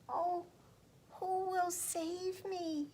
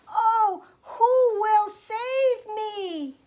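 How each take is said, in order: First: It is said in a small, quiet voice. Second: It is said as loudly as possible.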